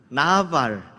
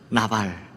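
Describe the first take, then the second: First: The word is said with a changed intonation. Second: The word is said with plain, neutral intonation.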